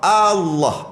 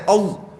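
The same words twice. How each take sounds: First: It starts with a clear a, then a thick l. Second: It starts straight away with an o sound. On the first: The speaker calls it right. "A dulu. Allah baru tebal" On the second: The speaker calls it wrong. "Bukan Allah. O terus"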